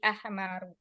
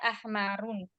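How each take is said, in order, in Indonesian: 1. Kata ini berakhir dengan vokal, tidak ada n. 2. Kata ini berakhir dengan bunyi n tambahan. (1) "tapi ahmaru" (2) "tidak boleh dibaca ahmarun"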